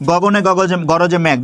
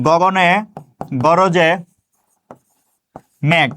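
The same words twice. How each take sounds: First: Said in the usual way. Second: Each word set apart by long pauses; slow word-by-word dictation. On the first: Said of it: "দেখেন". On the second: Shown as a demonstration. Teacher dictating a poem line to students, spaced out word by word. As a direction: dictate it slowly, one word at a time. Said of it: "সোনার তরী কবিতাটা লিখলাম".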